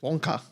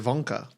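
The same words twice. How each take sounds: First: It is said in an Australian accent. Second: It is said in a German accent.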